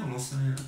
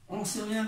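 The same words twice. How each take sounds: First: Said in the usual way. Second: Squeaky high playful take; high mock voice. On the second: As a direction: jump way up into a silly high voice. High jokey voice, then repeats plainly.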